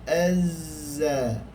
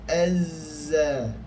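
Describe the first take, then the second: Both takes have the same delivery.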